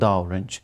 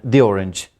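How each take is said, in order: First: 'The' is said with a short 'thuh' sound. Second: 'The' is said with a long 'thee' sound. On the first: The speaker calls it wrong. "not the orange" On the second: The speaker calls it right. "these used before a word that begins with a vowel sound"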